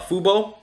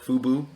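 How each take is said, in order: First: The name ends with an 'oh' vowel. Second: The name ends with an 'oo' vowel.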